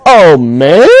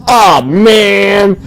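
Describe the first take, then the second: First: "Oh, man?" with a rising, questioning end. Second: "Oh, man." with a plain falling end; flat oh man. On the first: Player mocking the game voice line's questioning tune. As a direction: ask "Oh, man?" as if unsure. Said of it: "That's how it sounds like". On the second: Player showing how the line should have sounded. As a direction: settle "Oh, man." down flatly. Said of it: "Instead, he says". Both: Shown as a demonstration.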